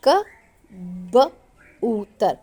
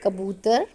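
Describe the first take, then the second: First: कबूतर very slowly, broken into क, ब, ऊ, तर with gaps; sounded out. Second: Said in the usual way. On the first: Shown as a demonstration. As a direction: stretch कबूतर sound by sound for a learner. (कबूतर को टुकड़ों में धीरे-धीरे) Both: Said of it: "एक एक, अ, जो हरूफ है उसके साथ बताया".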